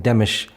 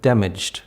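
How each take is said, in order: First: "demish" with the final cluster reduced to sh; simplified consonant cluster. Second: Said in the usual way. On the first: Shown as a demonstration. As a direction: say "damaged" as "demish", dropping the final d. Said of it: "simplification of consonant clusters". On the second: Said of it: "instead of damaged".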